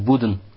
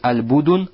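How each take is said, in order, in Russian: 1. Между d и n гласный не слышится. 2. Между d и n слышится краткий гласный u. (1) "Бамульба о сукуну даль. Или сукуну над даль" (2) "Бамульба вот даль, то есть аль-будун"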